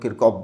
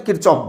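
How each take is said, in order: First: "Kirchhoff" said with a hard k, as Kirkoff; hard-k pronunciation. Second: "Kirchhoff" said with a ch, as Kirchoff; ch pronunciation. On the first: Teacher quoting how some people say it, "Kirchhoff" as Kirkoff. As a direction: say "Kirchhoff" as KIR-koff. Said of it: "कई लोग Kirchhoff बोलते हैं". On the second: Teacher giving students his own way, "Kirchhoff" as Kir-choff. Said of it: "मैं Kirchhoff बोलता हूँ". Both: Shown as a demonstration.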